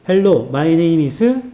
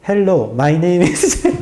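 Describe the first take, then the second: First: It is spoken with a Korean accent. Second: It is spoken with an English accent. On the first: "갑자기 한국 어, 억양으로 영어를 하더라고" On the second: "영어 억양으로 다시 해드릴게요"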